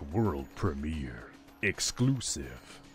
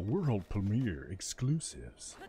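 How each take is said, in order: First: It is said in a put-on E3 announcer voice. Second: It is said without the E3 announcer voice.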